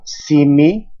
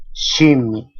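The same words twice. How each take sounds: First: Said in the usual way. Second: "shimi" with sh in place of s; northern variant "shimi" with sh; S as SHA. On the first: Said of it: "Esta suena sa". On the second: Shown as a demonstration. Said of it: "en algunos casos como sha".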